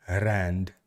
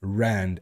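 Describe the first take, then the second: First: "rand" with a rolled R; low, soft "rand" with trilled R. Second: "Rand" with a soft rounded English R; low "Rand", untrilled English R. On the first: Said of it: "I'm rolling my R's". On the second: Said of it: "I'm rounding it". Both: Shown as a demonstration.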